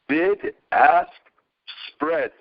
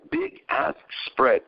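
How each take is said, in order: First: The phrase is said slowly, each word distinct. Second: The phrase is said quickly, words running together. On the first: The speaker calls it right. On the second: The speaker calls it wrong.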